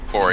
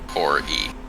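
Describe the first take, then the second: First: The name sounds like the word quarry. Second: The name sounds like core followed by ee. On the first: The speaker calls it wrong. "Not pronounced like you know when you when you chop rocks out of the ground" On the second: The speaker calls it right. "as in like Core E"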